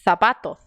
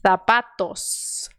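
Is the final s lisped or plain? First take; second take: lisped; plain. First: Both the first and final sounds are lisped. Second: Only the first sound is lisped, final s plain. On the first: The speaker calls it wrong. "aí eu exagerei" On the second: The speaker calls it right. "Só no primeiro, tá? Esse aqui é S, normal"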